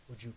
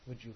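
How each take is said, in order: Both takes have the same delivery.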